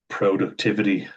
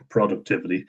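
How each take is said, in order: First: It is said in an American accent. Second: It is said in an Irish accent. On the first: "as Americans say" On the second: "as Irish people say"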